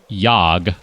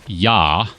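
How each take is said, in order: First: The word ends with a clear g sound. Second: The word ends on a vowel, no g. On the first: "I'm going to say, yog" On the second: "if you're not pronouncing the G"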